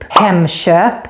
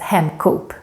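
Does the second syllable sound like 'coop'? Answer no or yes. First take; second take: no; yes. First: The second syllable does not sound like 'coop'. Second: The second syllable sounds like 'coop'. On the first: The speaker calls it right. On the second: The speaker calls it wrong.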